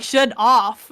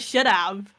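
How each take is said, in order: First: "should off" ending in a clear "off"; mocked native mistake. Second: Said in the usual way. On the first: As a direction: say "should off", with OFF in place of "have". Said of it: "natives say shit like". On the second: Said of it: "instead of".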